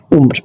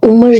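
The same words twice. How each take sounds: First: उम्र said as "umr" in one syllable, meaning age; उम्र as a single syllable for age; umr pronunciation. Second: Two-syllable उम्र, raised as if calling someone; name pronunciation. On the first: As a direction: say उम्र clipped, with no vowel before the r. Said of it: "वो लफ्ज़ है". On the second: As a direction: call out उम्र as the name, with a full "a" before the r. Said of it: "नाम होता है". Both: Shown as a demonstration.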